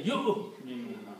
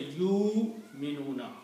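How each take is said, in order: First: Yu'minuna with a short "yu" cut off by a glottal stop; correct hamza pronunciation. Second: Yu'minuna with the "yu" drawn out long, no catch after it; wrong way with long vowel. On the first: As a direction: stop the breath sharply after "yu" in yu'minuna. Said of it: "You say yu'minuna". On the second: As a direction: stretch the first syllable of yu'minuna into a long "yuu". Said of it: "You don't say yu'minuna". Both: Shown as a demonstration.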